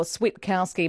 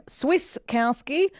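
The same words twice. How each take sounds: First: "Switkowski", the T pronounced firmly before "kowski"; emphasis on T. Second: "Swiskowski", the T lost into a hiss of S; mispronounced surname. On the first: Shown as a demonstration. Host shows listeners the player's proper name, "Switkowski" with emphasis on the T. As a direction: say "Switkowski" with a clearly sounded T after "Swi". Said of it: "making sure there's that emphasis on the T".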